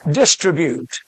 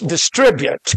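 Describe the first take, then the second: First: The stress is on the first syllable. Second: The stress is on the second syllable. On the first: The speaker calls it wrong. "Some of my girls mispronounce this word, and so does the news media" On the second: The speaker calls it right. "The word is distribute"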